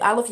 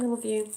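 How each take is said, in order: First: It is said flatly, without feeling. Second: It is said warmly, with felt vibration.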